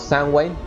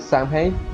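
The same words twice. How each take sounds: First: The name is said in its original pronunciation. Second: The name is said closely following its spelling.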